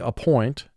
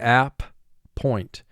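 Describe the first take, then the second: First: The first vowel is reduced and unstressed. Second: The first vowel is full, with a break after it. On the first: This is how it is said in normal conversation. "Conversationally, we say appoint" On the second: This is a careful saying to help with spelling. "For spelling, we say app, point"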